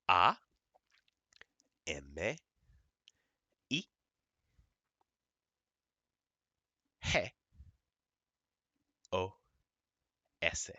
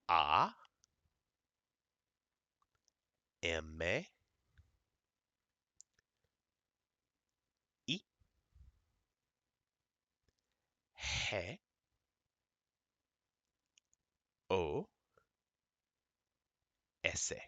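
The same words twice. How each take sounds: First: The letters are spelled at normal speed. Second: The letters are spelled out more slowly.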